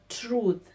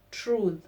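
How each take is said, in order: Both takes have the same delivery.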